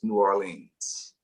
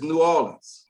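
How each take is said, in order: First: It is said the way outsiders pronounce it. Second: It is said the way locals pronounce it. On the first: The speaker is not from the city. "for for anybody outside of New Orleans" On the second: The speaker is from the city. "For for a native"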